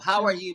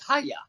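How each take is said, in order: First: Each word is said clearly and separately. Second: The words are squeezed into two quick syllables.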